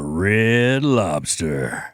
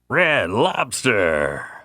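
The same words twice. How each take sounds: First: It is said in a normal speaking voice. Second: It is said in a big, booming announcer voice.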